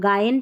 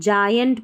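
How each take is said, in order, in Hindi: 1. इस शब्द की शुरुआत कड़े ग की आवाज़ से होती है। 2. इस शब्द की शुरुआत ज की आवाज़ से होती है। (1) "हम गायंट नहीं पढ़ रहे" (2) "यहाँ पर जायंट पढ़ रहे हैं"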